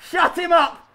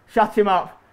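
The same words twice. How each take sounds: First: High, raised-voice demand; exclaimed high-pitched order; insistent shout. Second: Said in the usual way. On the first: Real, not acted. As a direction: call it out more forcefully.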